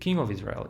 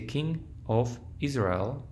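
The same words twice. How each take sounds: First: The words run together without breaks. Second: Each word is said separately with breaks. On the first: The speaker calls it right. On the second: The speaker calls it wrong.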